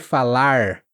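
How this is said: The final R is a curled sound. "o mais caipira das pessoas do interior"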